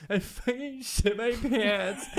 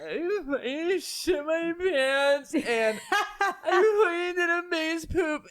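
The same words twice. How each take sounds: First: High, slow, laughing through a mock sob; drunk crying girl. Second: Much higher, slow mock wail breaking into laughter; drunk crying girl. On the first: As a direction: play the wailing drunk teen, half laughing. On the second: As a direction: ham up the sobbing teen confessing. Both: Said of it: "that's how she talks".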